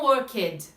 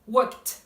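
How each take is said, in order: First: The word does not end with a T sound. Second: The word ends with a T sound. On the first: The speaker calls it wrong. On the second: The speaker calls it right.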